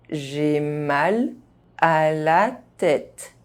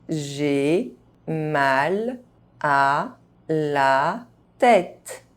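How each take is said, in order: First: The phrase is spoken at normal speed. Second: The phrase is spoken very slowly. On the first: This is the pace learners should use. "at a normal pace" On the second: Each syllable can be heard clearly. "very slowly"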